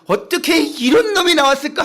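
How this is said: It is said with delighted laughter.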